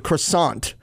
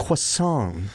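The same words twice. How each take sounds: First: "croissant" with a hard R and final T; English-style croissant. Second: "croissant" as kwuh-SAHN, no T; soft, nasal ending on "croissant" with silent T; French-style croissant. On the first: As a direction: say "croissant" as kruh-SAHNT. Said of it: "The English say it croissant". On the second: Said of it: "It's croissant". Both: Shown as a demonstration.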